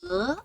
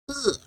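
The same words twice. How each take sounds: First: The syllable is said with the second tone. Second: The syllable is said with the fourth tone. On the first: "Second tone" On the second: "Fourth tone"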